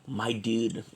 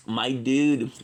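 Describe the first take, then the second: First: Said in the usual way. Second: A louder, punchier my dude; emphatic repeat. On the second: Real, not acted. Repeats phrase, louder take.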